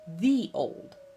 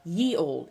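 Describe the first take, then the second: First: The first word begins with a th sound. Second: The first word begins with a y sound. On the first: The speaker calls it right. "it's a T H sound" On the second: The speaker calls it wrong. "it's not ye old"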